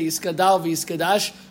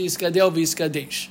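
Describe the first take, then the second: First: The final syllables have an 'ah' vowel. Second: The final syllables have an 'eh' vowel. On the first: This follows the common prayer-book custom. The speaker calls it wrong. "that one says with the Pasach" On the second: This follows the stricter authorities' view. The speaker calls it right. "say it with a Tzere"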